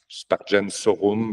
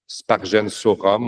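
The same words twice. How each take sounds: First: The Latin is pronounced in standard church style. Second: The Latin is pronounced with French sounds. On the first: "au lieu de" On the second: "à la française"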